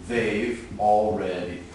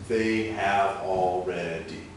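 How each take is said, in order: First: It is spoken with four syllables. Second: It is spoken with five syllables. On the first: "So now there are four" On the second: "That's five"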